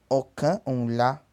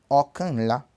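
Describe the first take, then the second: First: The n sound is kept between the words. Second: The n sound drops and the words merge. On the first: "Então ele é okan um lá" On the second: "para juntar tudo fica okan lá"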